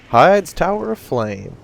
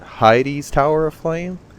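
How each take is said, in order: First: The name's first word has one syllable. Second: The name's first word has two syllables.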